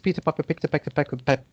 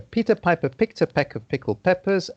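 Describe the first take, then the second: First: It is said fast, with stumbling words. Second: It is said at a slow, careful pace.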